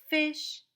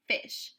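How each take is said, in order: First: Sounded out. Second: Said in the usual way. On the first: Shown as a demonstration. Teacher modelling for the student to copy, "Fish" sounded out. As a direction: hold the opening f long before finishing "Fish". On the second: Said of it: "What word?".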